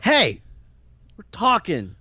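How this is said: It is said angrily in a New York accent. "like an angry New Yorker"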